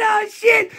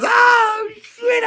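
First: High yelp landing down on shit; excited shout. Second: High yelping oh shit; excited shout. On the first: Fan yelping high in excited delight, falling away. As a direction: shout it high, then let it drop. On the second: Fan shouting high in excited delight. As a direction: blurt it out high and loud in delight. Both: Real, not acted. Hyped fan tribute, sudden outburst.

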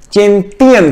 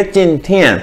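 First: चिंटियन said with a plain unaspirated t; चिंटियन, the common mistake with a hard t sound; wrong pronunciation. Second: चिंथियन said with a breathy th sound; चिंथियन with the aspirated th, the right way; correct pronunciation. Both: Shown as a demonstration. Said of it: "ये चिंटियन जो है कोई word नहीं है".

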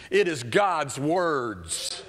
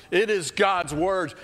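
First: Slow, weighty "It is God's words"; stressed God's words. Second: "It is God's words" higher and louder, slow; louder repeat. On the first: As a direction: lean on "It is", slow and deliberate. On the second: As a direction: build it up, proclaim it. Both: Shown as a demonstration.

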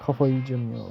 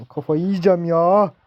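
First: Said in the usual way. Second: Exasperated outburst. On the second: Real, not acted. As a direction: let the frustration burst out on the repeat. Frustrated gamer repeats louder.

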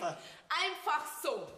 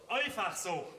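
First: Slow skeptical drawl. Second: Parroting echo. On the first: Musst jetzt du mir alles nachbauen. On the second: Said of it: "alles nachbauen". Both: Acted.

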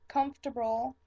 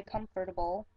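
First: Comfortable squeezed to "KUMF-ter-bul"; everyday pronunciation. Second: Comfortable in full, "KUM-fer-ta-bul"; reading pronunciation. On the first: Showing how they usually talk, everyday three-syllable comfortable. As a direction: drop the "or" in comfortable. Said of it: "I do say comfortable". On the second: Showing how they say it when reading, careful comfortable. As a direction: sound out all four syllables of comfortable. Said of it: "when I'm reading things, I say it differently". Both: Shown as a demonstration.

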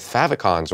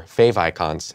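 First: FAVICONS said as "FAV-ih-cons"; "favicons" as one word, "fav" as in "have"; usual pronunciation. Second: FAVICONS said as "fave icons"; "favicons" with a long a and a long i; show's pronunciation. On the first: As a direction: say "favicons" with a short a. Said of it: "as we say here". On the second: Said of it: "as we say here on the Treehouse Show". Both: Shown as a demonstration.

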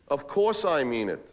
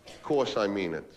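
First: Slow, with weight on "course"; insistent reassurance. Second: Slow, low and understated; reassuring. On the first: Man insisting to doubting girlfriend, emphatic "course". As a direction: lean on "course" in a fuller voice. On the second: Man answering girlfriend who doubts the love, low reassurance. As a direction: reassure gently, drawing the words out. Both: Acted.

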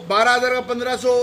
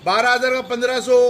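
The two takes are said the same way.

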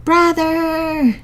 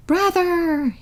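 First: Drawn-out wolf howl of grief. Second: Long wolf howl of grief. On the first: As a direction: cry out Brother like a howling wolf. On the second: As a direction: wail Brother like a wounded wolf. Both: A narrator's reading. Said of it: "he howled".

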